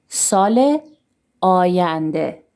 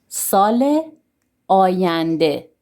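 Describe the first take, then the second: No difference in how they are said.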